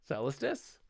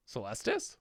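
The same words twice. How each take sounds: First: Said in the usual way. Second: Celestus with LES stressed, trying it out; testing the new stress; stress on second syllable. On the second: Shown as a demonstration. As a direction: ask it softly as Celestus, stress on the middle. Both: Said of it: "stress is on the second syllable".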